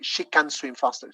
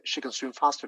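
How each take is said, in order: First: The word can is said with a full vowel. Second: The word can is reduced to a schwa. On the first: The speaker calls it wrong. "you don't say she can swim faster" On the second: The speaker calls it right. "this can goes for a schwa or a weak form"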